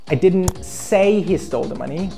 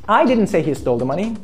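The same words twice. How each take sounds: First: The stress falls on the word say. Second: The stress falls on the word I. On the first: It was written, not spoken. "I wrote or I texted he stole the money" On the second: Someone else said it. "Someone else said he stole the money"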